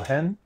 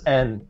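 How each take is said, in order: First: The word begins with an audible H sound. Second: The word begins without any H sound. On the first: The speaker calls it right. "I said that right, right?" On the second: The speaker calls it wrong. "like N and the H is silent?"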